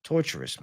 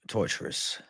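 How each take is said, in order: First: Said in the usual way. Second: "Torturous" breathed out in a whisper. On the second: Real, not acted. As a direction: drop it to a whisper, drained. Whispered repeat after a pause.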